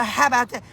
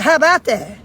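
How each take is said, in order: First: Imitating a child's cheeky comeback; mild mock sass, as a child's retort; retold little boy. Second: Loud, incredulous echo; mock-outraged repeat, hit hard; retold indignation. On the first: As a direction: quote the little boy talking back, lightly voiced. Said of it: "He said". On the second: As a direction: throw the child's words back in mock disbelief. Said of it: "I said".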